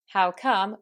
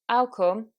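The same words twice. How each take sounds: First: The phrase begins with an h sound. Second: The phrase begins without an h sound.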